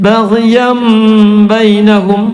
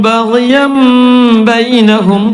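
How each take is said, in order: The two takes are said the same way.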